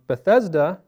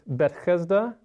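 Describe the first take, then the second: First: The name is pronounced the English way. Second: The name is pronounced the Hebrew way. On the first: "Both of those sound very similar in English" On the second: "But in Hebrew"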